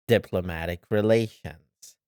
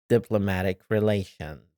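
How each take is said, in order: The two takes are said the same way.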